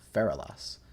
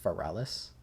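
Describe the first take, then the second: First: The name begins like 'feral', ending like Legolas. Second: The name does not begin like 'feral'. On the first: The speaker calls it wrong. "like Legolas, but feral" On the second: The speaker calls it right. "it's pronounced Feralis"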